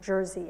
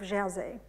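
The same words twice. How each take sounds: First: It is pronounced the English way. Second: It is pronounced the French way. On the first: "or Jersey, I guess you say here" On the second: "I say it as if it, I'm French"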